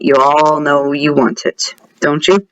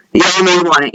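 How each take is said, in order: First: Sly teasing. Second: Said in the usual way. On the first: Pretend. Gamer tempting viewers with the item, sly teasing. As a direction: lean on it lower, teasingly. Repeats the tease lower, slyly.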